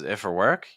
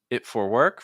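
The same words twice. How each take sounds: First: 'It' and 'for' run smoothly into each other. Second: 'It' and 'for' are said with a slight break. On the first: The speaker calls it right. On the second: The speaker calls it wrong.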